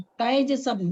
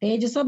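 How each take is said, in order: First: Ai vowel opening taijasam; correct "taijasam". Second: Plain e in the first syllable of tejasam; wrong "tejasam". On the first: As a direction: say taijasam with "tai", not "te". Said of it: "दो पाई है ऊपर". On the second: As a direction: say tejasam with "te", not "tai". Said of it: "तेजसम नहीं". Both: Shown as a demonstration.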